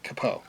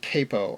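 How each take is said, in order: First: The first vowel sounds like 'cap'. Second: The first vowel sounds like 'cape'. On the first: The speaker calls it right. "It's spelled C A P O, so obviously capo" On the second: The speaker calls it wrong. "some people say capo... not spelled C A Y P O"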